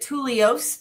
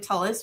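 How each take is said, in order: First: The name ends with an 'ose' sound. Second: The name ends with an 'is' sound. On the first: The speaker calls it wrong. "everyone wants to pronounce it Tulios" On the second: The speaker calls it right. "but it is actually Tullis"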